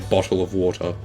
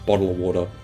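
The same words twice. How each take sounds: First: It is said with careful, deliberate pronunciation. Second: It is said in a relaxed, casual Australian way. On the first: "unless I'm being intentional with how I pronounce it" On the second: "That's that's like how Australians pronounce it"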